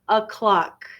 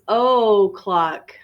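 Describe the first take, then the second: First: The first vowel is reduced to 'uh'. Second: The first vowel is a full 'oh' sound.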